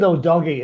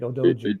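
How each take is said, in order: First: The middle consonant is a hard g sound. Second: The middle consonant is a soft j sound. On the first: The speaker calls it wrong. "they pronounce it Odogi" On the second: The speaker calls it right. "It's actually Odoji"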